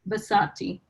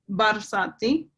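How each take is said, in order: First: The R sound in the middle is dropped. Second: The R sound in the middle is clearly pronounced. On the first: The speaker calls it wrong. "I might not say it right" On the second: The speaker calls it right. "So I put emphasis on the R"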